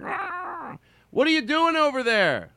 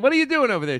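First: It is said in a disguised voice. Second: It is said in his normal voice.

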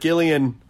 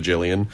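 First: The name begins with a hard G sound. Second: The name begins with a soft J sound. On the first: "hard G" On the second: "No shade to any soft G Gillians out there"

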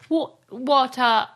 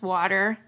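First: It is said halfway between American and British. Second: It is said in a full American accent. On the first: This is a mix of British and American. "the transatlantic is sort of water, but you know, half and half" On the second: This is the everyday American way. "ours is so gross"

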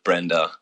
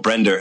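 First: The name ends in an open 'ah' vowel. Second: The name ends in an Australian 'er' vowel.

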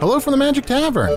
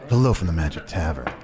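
First: It is said in a normal voice. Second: It is said in a put-on sexy voice.

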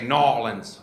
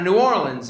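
First: The name is squeezed into two quick syllables. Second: The name is said in full, syllable by syllable. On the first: The speaker calls it right. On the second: The speaker calls it wrong.

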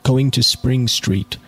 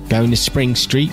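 First: It is spoken in the reader's plain accent. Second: It is spoken in an attempted Australian accent.

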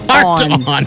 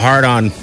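First: The T in heart is clearly pronounced. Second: The T in heart is weak or dropped. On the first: The speaker calls it right. "make sure you pronounce the T" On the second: The speaker calls it wrong. "It got a little lazy there"

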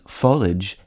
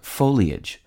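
First: It has two syllables, ending like marriage. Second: It has three syllables, ending in lee-ij. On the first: "consistent with the pronunciation of the I-A-G-E ending in marriage and carriage" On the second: "Most commonly accepted is the trisyllabic foliage"

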